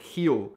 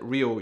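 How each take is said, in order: First: The word begins with an H-like sound. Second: The word begins with an English R sound. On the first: This is how people in Brazil say it. The speaker calls it right. "you pronounce it Rio" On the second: This is how people outside Brazil say it. The speaker calls it wrong. "you guys do not pronounce it Rio"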